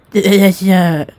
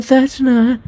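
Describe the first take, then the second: First: Put-on slipped into the wrong girl voice; lightly voiced wrong character. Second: High-pitched corrected character voice; corrected girl voice. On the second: Acted. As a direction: redo it in the right girl voice. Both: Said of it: "I mix voices".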